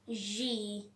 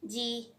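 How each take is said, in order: First: The letter is said with a vibrating buzz. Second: The letter is said plainly, without a buzz. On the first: This sounds smarter and more British. "smartly you just have to tell it G ... creates the vibrating noise" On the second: This is the everyday way of saying it. "Normally and daily we just pronounce this G"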